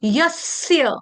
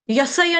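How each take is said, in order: First: यस्य as yas-sya with a held s; no vowel after the doubled स in यस्य; correct pronunciation. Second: यसय with full vowel on स, ya-sa-ya; three even syllables in यसय; wrong pronunciation. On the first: Teacher giving the actual word, joined held-s pronunciation. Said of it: "तो शब्द क्या है?". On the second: Teacher ruling out the mistake, full-vowel mispronunciation. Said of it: "यसय नहीं है". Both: Shown as a demonstration.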